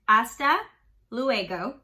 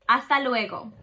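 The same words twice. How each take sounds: First: It is said with an English-sounding accent. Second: It is said with a Spanish-sounding accent. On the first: "Without the accent" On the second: "With the accent"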